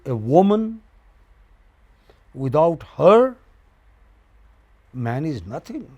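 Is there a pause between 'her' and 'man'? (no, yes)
yes. There is a pause between 'her' and 'man'. A man is nothing without a woman. "Then you are saying man is nothing"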